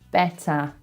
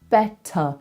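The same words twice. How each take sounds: First: The ending is an open 'ah' vowel. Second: The ending is a short, relaxed schwa. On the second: "normally in my accent, I would do a schwa"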